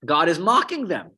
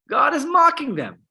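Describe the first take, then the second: First: Said in the usual way. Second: "mocking" pitched much higher and louder; high, punchy emphasis on "mocking"; emphatic repeat. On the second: Shown as a demonstration. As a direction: hit "mocking" hard and high. Repeats line to drive it home.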